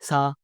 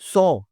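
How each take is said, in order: First: The vowel is an open unrounded 'ah'. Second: The vowel is a rounded 'aw'. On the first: The speaker calls it wrong. "बहुत सारे लोग गलत बोलते हैं" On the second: The speaker calls it right. "सी की second form सौ है"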